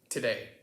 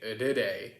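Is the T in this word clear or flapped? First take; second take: clear; flapped. First: The T is pronounced as a clear T. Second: The T is softened into a quick flap. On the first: "it would be a clear T sound" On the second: "even though it sounds funny when I say it by itself"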